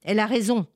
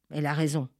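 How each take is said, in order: First: Higher, louder "Elle a raison" with a firm fall; emphatic. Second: Said in the usual way. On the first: Acted. Elder affirming to the farmers, emphatic. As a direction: declare "Elle a raison" firmly. Elder agrees, then repeats softly.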